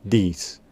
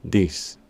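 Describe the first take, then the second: No difference in how they are said.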